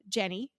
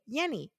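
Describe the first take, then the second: First: The name is said in English style. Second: The name is said in Spanish style. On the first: "My mother's name is Jenny" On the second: "And they say Yenny"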